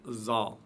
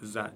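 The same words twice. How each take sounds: First: The consonant is heavy and thick. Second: The consonant is light and thin. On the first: The speaker calls it wrong. "et non pas" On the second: The speaker calls it right. "prononcé légèrement"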